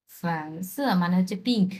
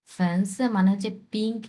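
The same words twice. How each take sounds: The two takes are said the same way.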